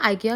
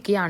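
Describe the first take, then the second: First: The first vowel sounds like 'eye'. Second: The first vowel sounds like 'ee'. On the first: This is how English speakers say it. "American లాంగ్వేజ్లో ఇంకా Britain లాంగ్వేజ్లో అయితే ఐకియా అని correct pronunciation" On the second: This is how people in Sweden say it. "స్వీడన్లో వాళ్ళు ఇకియా అంటారు"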